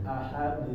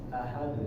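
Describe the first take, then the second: Both takes have the same delivery.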